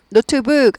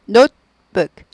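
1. note의 모음은 단모음 o예요. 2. note의 모음은 o에서 u로 넘어가요. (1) "노트북 아니고" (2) "오가 아니라 오우예요. 스타카토예요"

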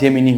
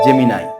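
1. শব্দটি 'nee' ধ্বনি দিয়ে শেষ হয়। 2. শব্দটি 'nigh' ধ্বনি দিয়ে শেষ হয়। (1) "অনেকেই এটার উচ্চারণ ভাবে জেমিনি হবে" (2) "সঠিক উচ্চারণ হবে জেমিনাই"

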